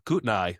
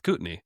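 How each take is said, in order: First: The name is said the outsider way. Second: The name is said the local way. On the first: The speaker calls it wrong. "Instead of Kootenai" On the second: The speaker calls it right. "it's Kootenai"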